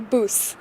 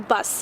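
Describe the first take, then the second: First: It is said with a Manchester vowel sound. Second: It is said with an American vowel sound. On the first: "here they say bus" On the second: "how we or Americans would say a bus"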